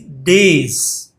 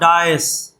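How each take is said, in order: First: The word is said like 'days'. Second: The word is said like 'dice'. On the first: The speaker calls it right. "It is days" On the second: The speaker calls it wrong. "Most of the people pronounce it as dice. It is not dice"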